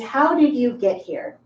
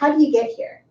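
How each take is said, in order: First: Every word is said fully and separately. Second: Some words run together, somewhat relaxed. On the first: The speaker is talking as a teacher. "As a teacher, my pronunciation is" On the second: The speaker knows the listener but is not close. "When I'm talking with someone who I know, but maybe they're not close"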